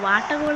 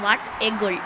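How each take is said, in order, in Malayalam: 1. 'what a' എന്ന വാക്കുകൾ ഒന്നിച്ചാണ് പറയുന്നത്. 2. 'what a' എന്ന വാക്കുകൾ വേറെ വേറെയാണ് പറയുന്നത്. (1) "വട്ട ഗോ വാട്ട ഗോൾ എന്നല്ല" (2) "ഞാൻ വാട്ട് എ ഗോൾ എന്നാണ് ഉദ്ദേശിച്ചത്"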